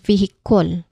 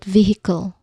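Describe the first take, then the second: First: The unstressed vowel is a full, strong sound. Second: The unstressed vowel is a quick, soft uh. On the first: The speaker calls it wrong. "like the strong O sound there" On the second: The speaker calls it right. "like a quick, soft uh sound"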